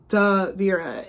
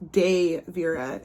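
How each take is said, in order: First: The first syllable has a short 'uh' vowel. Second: The first syllable has a long 'ay' vowel. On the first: The speaker calls it wrong. "you don't say duh Vera" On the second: The speaker calls it right. "it's day Vera"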